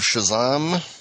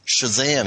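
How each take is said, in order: First: Shazam is pronounced in an odd, unusual way. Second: Shazam is pronounced in the usual way. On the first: The speaker calls it wrong. "That was a very strange pronunciation" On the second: The speaker calls it right. "Or Shazam, even"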